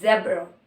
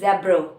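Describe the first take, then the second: First: It is said in a British accent. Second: The same.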